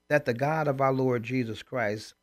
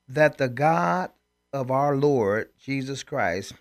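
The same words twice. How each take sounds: First: It is read at normal speed. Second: It is read more slowly.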